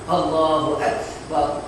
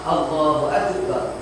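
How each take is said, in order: First: The k is released with a soft breath. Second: The k is released with a bouncing echo. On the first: "dia sifatnya adalah sifat sifat mahmuz ya" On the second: "kita keluar qalqalah"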